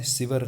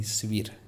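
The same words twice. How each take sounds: First: शिविर said as sivar, a for i; mispronunciation demo. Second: शिविर with i in both syllables; correct pronunciation. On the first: Teacher shows the mistake, शिविर mispronounced as sivar. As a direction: flatten the second i of शिविर to a. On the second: Teacher corrects the word, शिविर pronounced si-vir. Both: Shown as a demonstration. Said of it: "शिविर नहीं".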